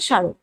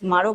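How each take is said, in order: First: The word begins without any m sound. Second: The word begins with a clear m sound. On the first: The speaker calls it right. "উচ্চারণটা হচ্ছে স্মারক" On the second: The speaker calls it wrong. "তবে উচ্চারণটা স্মারক না"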